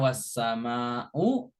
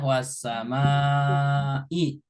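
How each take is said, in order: First: The word ends with a u vowel. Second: The word ends with an i vowel. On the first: The speaker calls it wrong. "Nggak boleh dibaca" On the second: The speaker calls it right. "harus kasroh"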